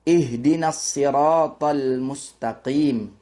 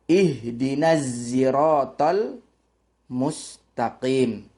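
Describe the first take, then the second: First: The word siratal begins with an emphatic S sound. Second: The word siratal begins with a Z sound. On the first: This is the reading of most readers in Southeast Asia. "kita membacanya dengan shad" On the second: This is the reading of another transmitted tradition. "cara membacanya bukan shad tapi zai"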